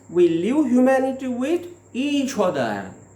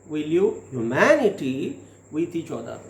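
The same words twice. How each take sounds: First: The stress falls on the words each other. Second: The stress falls on the word humanity. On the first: Each other are responsible for living humanity. "here the stress is there given on each other" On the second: Humanity itself is what matters. "Here there is the stress on humanity"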